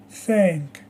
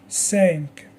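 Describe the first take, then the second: First: "thank" alone, opening on TH; TH sound. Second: "sank" alone, opening on S; S sound. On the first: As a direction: model "thank" with tongue between the teeth. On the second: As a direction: model "sank" with tongue behind the teeth. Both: Shown as a demonstration. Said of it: "Repeat after me".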